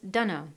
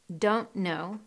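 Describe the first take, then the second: First: The words blend into one with a schwa. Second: Both words are pronounced fully and separately. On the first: "We've dropped the ont in don't and replaced it with the schwa" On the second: "Don't know becomes dunno"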